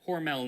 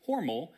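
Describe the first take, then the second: First: The name does not rhyme with normal. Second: The name rhymes with normal. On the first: This is how the company says it today. "the company pronounces it Hormel now" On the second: This is how the family originally said it. "as in rhymes with normal"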